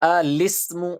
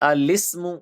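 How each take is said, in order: Both takes have the same delivery.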